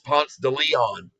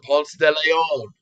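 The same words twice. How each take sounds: First: The name is pronounced the common American way. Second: The name is pronounced differently from the American way. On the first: This is how most Americans know the name. "everyone in America knows him as" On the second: This is the correct pronunciation of the name. "the correct pronunciation"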